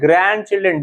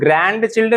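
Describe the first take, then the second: First: The d sound in grand is silent. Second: The d sound in grand is pronounced. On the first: The speaker calls it right. "डी silent होता है" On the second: The speaker calls it wrong. "अब इसको ग्रैंड चिल्ड्रन नहीं पढ़ना"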